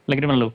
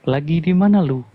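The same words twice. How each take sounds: First: The phrase is spoken very fast. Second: The phrase is spoken slowly and clearly. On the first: Other people nearby cannot understand it. "Tapi kalau punya abang kan" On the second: Other people nearby can understand it. "kalau misalkan pelan, orang bisa dengar"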